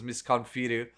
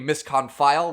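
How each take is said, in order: First: The name gets a Japanese-style pronunciation. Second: The name gets an English-style pronunciation. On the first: "The Japanese is Misconfiru" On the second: "which is the way the English, you know, voice actress pronounces it"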